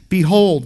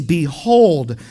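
First: "Behold" louder and clipped short, falling; emphatic Behold. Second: "Behold" said louder, falling firmly; emphatic Behold. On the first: Pastor repeating the verse, emphatic Behold. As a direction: stamp "Behold" as listen up. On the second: Pastor reading scripture, emphatic Behold. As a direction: land "Behold" hard like a command. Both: Shown as a demonstration. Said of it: "uh, very emphatic".

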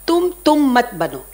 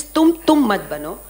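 First: Voicing the Guru, a bit louder and firmer; Guru's teaching. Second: Repeating the maxim a bit louder, rising at the end; Guru's teaching. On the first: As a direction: quote the teacher's maxim with weight. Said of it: "he used to say one thing". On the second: Retold or imitated. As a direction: repeat the teacher's words, firm but lighter. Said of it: "He taught me this".

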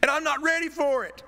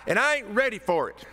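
First: Even higher, loud, squeaky "I'm not ready for it"; squeaky Wooster voice. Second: High, loud plea with "ain't" pushed up; Wooster voice. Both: Retold or imitated. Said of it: "In my best Wooster voice".

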